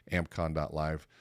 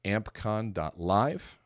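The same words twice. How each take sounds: First: Said in the usual way. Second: "ampcon dot live" slow and deliberate, each part separated, rising on "live"; spelled-out web address. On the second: Shown as a demonstration. Host announcing the event site, slow deliberate dictation. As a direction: spell out "ampcon dot live" slowly for listeners, ending on a rise. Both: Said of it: "Go to".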